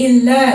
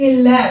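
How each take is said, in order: The two takes are said the same way.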